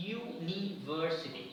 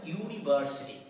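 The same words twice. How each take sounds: First: ইউনিভার্সিটি stretched very slowly, syllable by syllable, rising at the end; ইউনিভার্সিটি spelled out in sound, slow and rising; slow model pronunciation. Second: ইউনিভার্সিটি said at normal pace, falling at the end; ইউনিভার্সিটি said plainly with the yoo sound first; model pronunciation. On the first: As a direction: drag out ইউনিভার্সিটি so the yoo sound is heard. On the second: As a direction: say ইউনিভার্সিটি clearly for the class. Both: Shown as a demonstration. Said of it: "ইউ, Y ও ইউ উচ্চারণ হচ্ছে".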